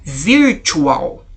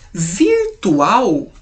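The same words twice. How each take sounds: First: The word is pronounced with English sounds. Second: The word is pronounced with Portuguese sounds. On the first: "porém nós falamos um pouquinho diferente" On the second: "nós escrevemos igual"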